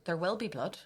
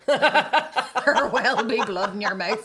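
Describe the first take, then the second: First: Said in the usual way. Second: Slow, loud threat through laughter; laughing mock threat. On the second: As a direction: stretch it out laughing. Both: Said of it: "I said".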